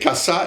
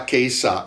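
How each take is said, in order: First: The first vowel is an open 'ah' sound. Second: The first vowel is an 'ay' diphthong. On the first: The speaker calls it right. "c'était kasa" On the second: The speaker calls it wrong. "il prononce à l'américaine K A S A comme Keisa"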